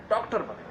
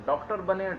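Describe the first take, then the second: First: doctor said higher with a firm falling close; emphatic final repeat. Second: doctor lifted a little as the advice repeats; urging repeat. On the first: Telling viewers their children must become doctors, emphatic. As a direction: land hard on doctor to clinch the advice. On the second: Advising parents, repeating the word with mild emphasis. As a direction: say doctor بنے again with a slight push on doctor. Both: Real, not acted. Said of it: "ضرور کہیں کہ وہ doctor بنے".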